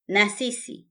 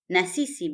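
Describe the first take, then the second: First: It is said as two full words. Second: The same.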